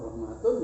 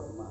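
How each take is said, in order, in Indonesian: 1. Kata ini berakhir dengan akhiran tun penuh. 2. Kata ini berakhir dengan bunyi h yang tidak terucap.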